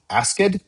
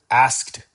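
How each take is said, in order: First: The ending is said as a separate extra syllable. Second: The ending is not said as a separate syllable. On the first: The speaker calls it wrong. "The manager asked asked questions? No" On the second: The speaker calls it right. "it would be the manager asked questions"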